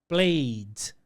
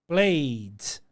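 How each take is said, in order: Both takes have the same delivery.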